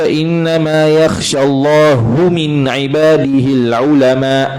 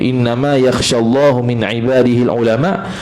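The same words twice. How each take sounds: First: The ending vowel -u falls on Allah. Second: The ending vowel -u falls on ulama. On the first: God is the one who fears the scholars. The speaker calls it wrong. "mana Allah yang takut dengan ulama, bukan ulama takut dengan Allah" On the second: The scholars are the ones who fear God. The speaker calls it right. "Hanya sahaja takut akan Allah daripada hamba-hambanya oleh ulama"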